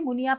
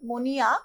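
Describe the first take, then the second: First: The first vowel sounds like u. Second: The first vowel sounds like o. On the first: This is the usual standard pronunciation. "আমরা সাধারণত আদর্শ বাংলায় এইভাবে মুনিয়া পাখি বলি" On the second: This is the poet's own spoken pronunciation. "কবি শব্দটাকে উচ্চারণ করেছেন মনিয়া"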